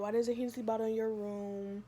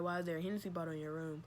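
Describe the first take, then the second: First: It is said in an angry tone. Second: It is said in a calm tone.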